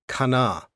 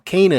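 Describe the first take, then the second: First: The name is pronounced with Hebrew sounds. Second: The name is pronounced with English sounds. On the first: "If you're speaking Hebrew" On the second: "the way we say it anglicized"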